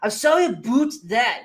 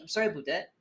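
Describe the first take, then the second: First: The Canadian accent is heavily exaggerated. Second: The Canadian accent is light and natural. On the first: The speaker calls it wrong. "they have to emphasize" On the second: The speaker calls it right. "You say it naturally like that"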